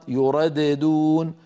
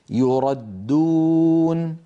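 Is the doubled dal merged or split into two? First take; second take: split; merged. First: The dal is split into two separate sounds. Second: The dal is one merged, doubled sound. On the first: The speaker calls it wrong. "لو نطقنا الدال الأولى مقلقلة" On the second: The speaker calls it right. "الدال المشددة"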